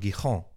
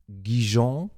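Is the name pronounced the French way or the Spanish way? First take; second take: Spanish; French. First: The name is said with a Spanish pronunciation. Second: The name is said with a French pronunciation. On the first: The speaker calls it right. "sondern Gijón. Das ist doch Spanisch" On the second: The speaker calls it wrong. "nicht Gijón wie den Senf aussprechen"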